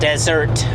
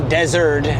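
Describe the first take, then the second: First: The middle consonant sounds like a T. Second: The middle consonant sounds like a D. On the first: The speaker calls it right. "rather than desert" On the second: The speaker calls it wrong. "if I say desert"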